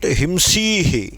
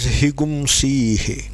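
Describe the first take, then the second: First: The nasal is a plain 'm' sound. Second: The nasal becomes an inserted 'gum' syllable. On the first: This is the form used for the meaning. "Drop it and say himsihi" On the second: This is the form used when chanting. "is pronounced as higumsihi"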